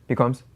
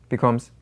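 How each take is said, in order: No difference in how they are said.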